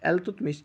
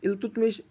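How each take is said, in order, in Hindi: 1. नाम 'E' ध्वनि से शुरू होता है। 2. नाम 'I' ध्वनि से शुरू होता है। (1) "इंग्लिश में बोलते हैं एल्तुतमिश" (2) "इल्तुतमिश इसका असली नाम है"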